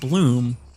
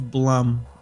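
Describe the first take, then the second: First: The vowel sounds like the one in 'bloom'. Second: The vowel sounds like the one in 'Blumkin'. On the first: The speaker calls it wrong. "I've always said Bloom" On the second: The speaker calls it right. "Like in Blumkin"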